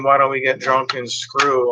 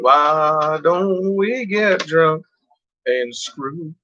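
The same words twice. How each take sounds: First: Said in the usual way. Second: Slow, drawn-out crooning of the lyric; Burt Reynolds line. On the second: Retold or imitated. Quoting the song to viewers, slow crooning. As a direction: stretch it out slowly like the record. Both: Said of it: "like the Burt Reynolds thing".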